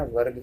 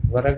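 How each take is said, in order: First: Said in the usual way. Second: वर्ग as two syllables, va-rag; wrong pronunciation. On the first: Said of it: "कहना है". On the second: Shown as a demonstration. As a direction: open a vowel after र in वर्ग. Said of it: "नहीं कहना". (वर्ग को व-रग बोलें)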